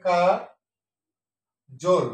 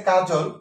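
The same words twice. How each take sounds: First: কা, long pause, then জল as 'jol'; syllable by syllable. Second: Said in the usual way. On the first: Shown as a demonstration. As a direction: split কাজল into 'kaa... jol'. (কা... জোল, ভেঙে ভেঙে উচ্চারণ) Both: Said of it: "সঠিক উচ্চারণ হবে".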